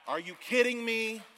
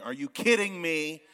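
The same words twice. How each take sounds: First: Higher, louder disbelieving repeat; amazed disbelief. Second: Amazed disbelief. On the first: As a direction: say it again, even more stunned. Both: Real, not acted. Amazed at building.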